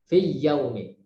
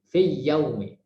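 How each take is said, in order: No difference in how they are said.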